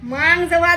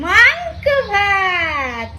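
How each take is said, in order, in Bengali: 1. এটা সাধারণ, স্বাভাবিক গলায় বলা হয়েছে। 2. এটা ন্যাকা, কৃত্রিম গলায় বলা হয়েছে। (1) "ভুল বললে শোনো" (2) "আমি একটু ভাই ন্যাকামি করলাম"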